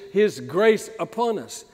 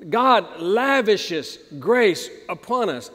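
First: Said in the usual way. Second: Slow down and weigh each word of "God lavishes grace upon us"; slow, weighty repeat. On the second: Shown as a demonstration. Preacher repeats the verse slowly so it sinks in. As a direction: lay "lavishes" out slowly, savouring it.

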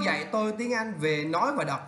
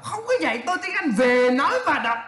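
First: Said in the usual way. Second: High, amused disbelief with a laugh; mocking correction. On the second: Shown as a demonstration. Teacher rejecting a student's awkward phrase, mockingly. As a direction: hammer VỀ NÓI VÀ ĐỌC louder and higher.

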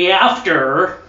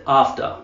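First: "After" in an exaggerated American accent, hard R; higher American "After" with flat A and drawn-out R; mock American accent on "After". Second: "After" as AHF-tuh, no R at the end; long AH in "After", silent R, in usual pitch; non-rhotic "After", said AHF-tuh; proper-accent "After". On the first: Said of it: "you have to say it in a proper accent". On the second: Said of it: "You gotta say". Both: Shown as a demonstration.

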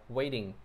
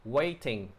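First: "waiting" American-style, T softened to a D; "waiting" run together with a flapped T; quick American reading. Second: "Waiting" with WAIT stressed and a clear T; "Waiting" as WAY-ting, crisp T in the middle; first-syllable stress. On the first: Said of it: "theo giọng Mỹ thì nó đọc nhanh". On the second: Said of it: "nhấn âm đầu nha mọi người". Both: Shown as a demonstration.

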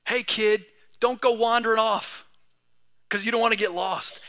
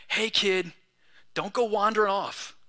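First: Put-on mild call to a wandering kid, a bit louder; parent warning a kid. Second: Gentle, unraised warning; lovingly. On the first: Parent warning a little boy in the museum, firm and a touch raised. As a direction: warn the kid off as a parent would. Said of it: "there's a little caution in me". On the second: Shown as a demonstration. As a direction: say it kindly, like a caring elder. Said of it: "can I just lovingly and respectfully say".

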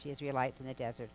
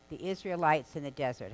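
First: Fast, throwaway repeat of the phrase; tossed-off quick reminder; quick aside repeat. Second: Said in the usual way. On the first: Shown as a demonstration. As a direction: rush through it as a recap.

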